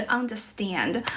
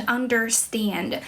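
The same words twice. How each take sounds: First: "understand" in British English, R dropped; British accent. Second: "understand" in American English, R sounded; American accent. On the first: English teacher contrasting the R sound, British accent. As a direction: say "understand" British-style, without the r. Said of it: "英式的话就是". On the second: English teacher showing viewers the R sound, American accent. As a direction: say "understand" American-style, with the r pronounced. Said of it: "像美式英语的话". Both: Shown as a demonstration.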